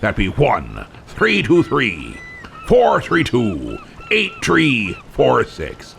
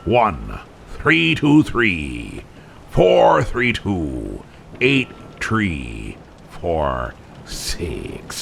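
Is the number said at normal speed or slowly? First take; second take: normal speed; slowly. First: It is said at normal speed. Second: It is said slowly.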